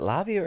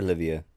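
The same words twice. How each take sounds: First: Lavia with an open "a" as in "lav". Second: Livia with a short "i" as in "live". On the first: Checking the runner's name with the panel, said as Lavia. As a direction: say Lavia, first syllable "lav". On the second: Checking the runner's name with the panel, said as Livia. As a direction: say Livia, first syllable "liv". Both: Shown as a demonstration. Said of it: "is it Lavia or Livia".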